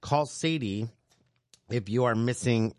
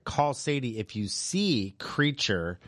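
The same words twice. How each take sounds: First: Said in the usual way. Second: Slow, with "see" stressed as the corrected word; slow down and lean on "see"; careful correction. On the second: Real, not acted. Host correcting a misread listing, stressing see. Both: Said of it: "or no, no, I'm sorry".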